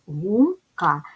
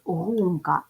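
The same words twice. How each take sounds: First: Гумка split into two syllables, гум-ка. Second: Гумка with stress on ГУМ, falling after; stress on first syllable. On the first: Teacher showing first graders the syllables of Гумка. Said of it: "Ділимо на склади". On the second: Teacher marking for first graders the stress in Гумка. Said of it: "Ставимо наголос". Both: Shown as a demonstration.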